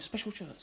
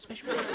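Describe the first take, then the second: First: Said in the usual way. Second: Special shirt squeaked up high; high, rising special shirt. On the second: Acted. Comic repeats his shirt in a high squeak.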